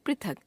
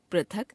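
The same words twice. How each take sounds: First: Said in the usual way. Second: पृथक as "prathak", with a; wrong pronunciation. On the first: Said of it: "शुद्ध". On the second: Shown as a demonstration. Teacher showing a common error, पृथक as "prathak". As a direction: replace the ri of पृथक with ra. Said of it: "अशुद्ध".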